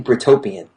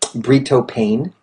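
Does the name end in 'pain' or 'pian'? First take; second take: pian; pain. First: The name ends with the sound 'pian'. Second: The name ends with the sound 'pain'. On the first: This is the name as intended. The speaker calls it right. "It's actually Britopian" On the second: This is how others misread the name. The speaker calls it wrong. "Some people say it's"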